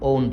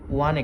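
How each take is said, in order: First: The word is said like 'own' without a w-glide. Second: The word is said like 'wan' with a w-glide. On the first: The speaker calls it wrong. "এটি অনেকেই ভুল করে ওন বলে, এটি ভুল উচ্চারণ" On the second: The speaker calls it right. "এখানে দেখতে পাচ্ছ ওয়ান একটি শব্দ রয়েছে"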